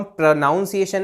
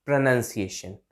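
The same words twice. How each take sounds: First: प्रोनाउंसिएशन with 'noun', pitched up; wrong pronunciation. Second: Lower, softer प्रोनंसिएशन with 'nun'; correct pronunciation. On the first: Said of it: "प्रोनाउंसिएशन नहीं". (ग़लत, बीच में 'नाउन') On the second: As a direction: model प्रोनंसिएशन as pruh-NUN-siation. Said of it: "ऐसे करके इसको बोलेंगे". (बीच में 'नन', नीचे सुर में) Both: Shown as a demonstration.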